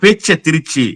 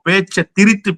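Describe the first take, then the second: First: The last word ends with a 'chi' sound. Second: The last word ends with a 'thu' sound. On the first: It sounds like the city name Trichy. The speaker calls it wrong. "அப்புறம் தான் சொல்றாரு இல்ல பேச்ச திருச்சி" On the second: It means twisting someone's words. The speaker calls it right. "ஓ பேச்ச திரித்து பேசுறத தான் சொல்றாரு"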